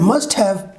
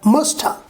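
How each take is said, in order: First: Both words are said fully and separately. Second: The words are blended into one reduced word.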